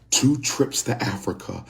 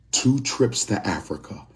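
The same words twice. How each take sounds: The two takes are said the same way.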